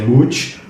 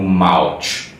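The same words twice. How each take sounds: First: The vowel sounds like the one in 'mooch'. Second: The vowel sounds like the one in 'mouth'. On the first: The speaker calls it right. "na verdade a pronúncia é Mouch porque é uma piada" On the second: The speaker calls it wrong. "antes eu lia como Mouch, tipo como se fosse mouth"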